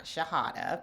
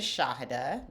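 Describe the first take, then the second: First: Shahada with the first syllable reduced, stress on the middle; mispronounced name. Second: Shahada with a full, stressed first syllable; correct name pronunciation. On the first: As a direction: say Shahada as sha-HA-da. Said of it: "not Shahada". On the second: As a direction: lean on the opening "Shah" in Shahada. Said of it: "can't pronounce the first syllable". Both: Shown as a demonstration.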